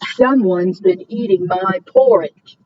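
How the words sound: It is said in a big, deep voice.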